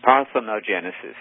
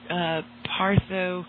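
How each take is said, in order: First: The word is said with six syllables. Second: The word is said with five syllables. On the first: The speaker calls it right. "Let me correct the pronunciation of that word" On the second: The speaker calls it wrong. "I slipped there"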